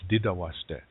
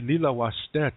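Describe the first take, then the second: First: The first word begins with a D sound. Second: The first word begins with an L sound. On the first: A Dakota speaker says it. "For him, it's Dida washte" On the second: A Lakota speaker says it. "If I say Lila washte to a Dakota"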